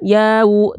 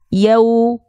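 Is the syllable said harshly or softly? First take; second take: harshly; softly. First: The syllable is said harshly. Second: The syllable is said softly. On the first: The speaker calls it wrong. "jangan yau" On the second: The speaker calls it right. "tapi lembut"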